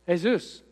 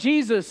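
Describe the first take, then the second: First: The name is said with Spanish pronunciation. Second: The name is said with English pronunciation. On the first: "it was Jesus. So different languages, and they might say it differently" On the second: "But it wasn't Jesus"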